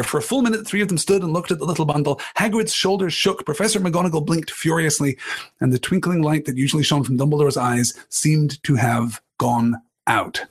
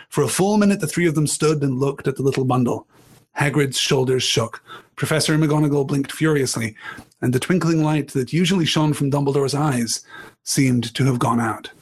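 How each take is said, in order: First: Quicker rereading of the passage; rereading narration. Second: Measured read-aloud narration; story narration. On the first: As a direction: reread it to savour the beat. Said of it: "The last part of that penultimate paragraph". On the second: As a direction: read the scene to the class. Reading the novel aloud. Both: A narrator's reading.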